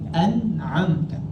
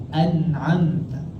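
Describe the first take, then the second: Both takes have the same delivery.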